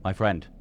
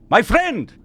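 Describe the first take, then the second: First: Said in the usual way. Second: Higher, louder call across the room. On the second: Acted. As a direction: shout to get attention. NPC calling players over.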